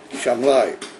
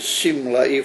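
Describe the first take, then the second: First: The name begins with an sh sound. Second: The name begins with an s sound. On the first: "with a, a shin yamini, uh, Shamlai" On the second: "Either with a sin small is Shimlai from the word Simla"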